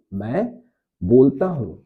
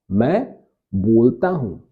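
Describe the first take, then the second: No difference in how they are said.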